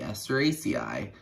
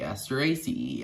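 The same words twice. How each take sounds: First: The final syllable ends with an 'eye' sound. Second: The final syllable ends with an 'ee' sound.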